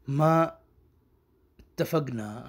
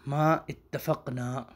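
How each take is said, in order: First: Said in the usual way. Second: ما اتفقنا drawn out syllable by syllable; very slow. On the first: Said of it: "یہ اصل میں لفظ تھا". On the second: Shown as a demonstration. Teacher spelling the original word out slowly. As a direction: stretch every syllable of ما اتفقنا.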